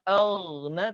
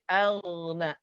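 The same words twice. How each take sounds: First: The first vowel is rounded toward O. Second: The first vowel is a pure open A. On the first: The speaker calls it wrong. "bukan al-na" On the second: The speaker calls it right. "tapi al-na A, sempurna A"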